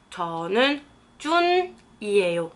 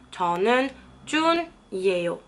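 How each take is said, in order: Both takes have the same delivery.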